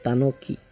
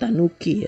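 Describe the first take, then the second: First: The vowel after Tan is a long o. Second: The vowel after Tan sounds like u. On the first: The speaker calls it right. "Jadi O-nya panjang" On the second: The speaker calls it wrong. "Bukan Tanuki ya"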